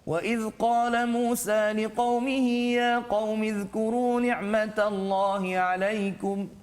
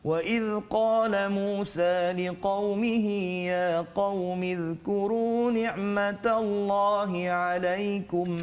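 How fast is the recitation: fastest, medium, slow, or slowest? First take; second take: medium; slow. First: It is recited at a moderate, medium pace. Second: It is recited slowly, slightly faster than slowest. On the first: "Dia taklah sangat laju, tak sangat perlahan" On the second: "tartil itu laju sedikit ya"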